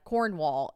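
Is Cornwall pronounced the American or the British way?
American. Cornwall is pronounced in an American way. The speaker calls it wrong. "They say we say it like Cornwall"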